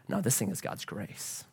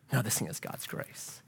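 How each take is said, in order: First: Quiet conviction. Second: Breathy whisper of awe; hushed whisper, much softer; whispered repeat. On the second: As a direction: whisper it the second time. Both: Real, not acted.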